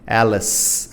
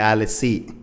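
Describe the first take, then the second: First: The final e is silent. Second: The final e is pronounced like i. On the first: The speaker calls it right. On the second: The speaker calls it wrong.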